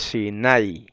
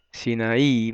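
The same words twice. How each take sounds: First: Sinai with the accent on the A, Hebrew style; drawn-out A in Sinai, short trailing i; stress on A. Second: Sinaí, three syllables, accent on the closing I; Greek-style Sinaí, stressed at the very end; stress on final I. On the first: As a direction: say Sinai as si-NAI, slowly. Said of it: "se acentúa en la A". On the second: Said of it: "con acento en la I". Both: Shown as a demonstration.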